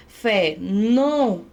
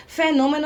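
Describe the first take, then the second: First: "fenômeno" broken up, "nô" held long; stress on nô. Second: Said in the usual way. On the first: Shown as a demonstration. Teacher proving the word needs an accent, long stressed "nô" in "fenômeno". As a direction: draw out the "nô" in "fenômeno". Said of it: "proparoxítonas devem receber acento". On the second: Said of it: "é uma palavra proparoxítona".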